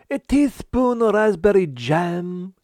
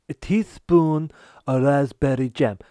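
First: High, loud and slow; emphatic. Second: Said in the usual way. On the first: Acted. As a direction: spell it out slowly and loudly. Chef insists, host asks again.

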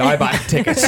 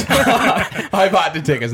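First: Said in the usual way. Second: Higher, slow, laughing through it. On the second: Real, not acted. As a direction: laugh as you confess. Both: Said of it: "Yeah, you're right. I'm full of shit".

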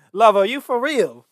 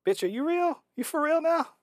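First: Loud, high mock British mother; incredulous British-accented mum impression. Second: Very high-pitched mock mother's scolding; squeaky impression of an appalled mom; imitated incredulous mama. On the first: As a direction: exclaim it in a hammed-up British accent. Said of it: "do it in the British accent". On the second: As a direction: question her in high disbelief, hammed up. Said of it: "her mama must have been like".

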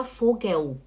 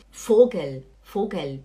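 First: Vogel mispronounced "fo-gueu"; wrong final L. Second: Vogel with a clear L at the end; correct final L. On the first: Teacher showing students what to avoid, L as U. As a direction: let the L of Vogel turn into a U. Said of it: "não fala Vogel". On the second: Teacher modelling German for students, clear final L. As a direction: close Vogel with the tongue tip up on L. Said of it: "o L não tem som de U". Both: Shown as a demonstration.

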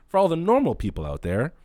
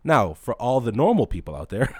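First: Repeats the phrase through a laugh. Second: Said in the usual way. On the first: Real, not acted. Laughing as he explains to normal viewers. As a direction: laugh while saying it to the normal people.

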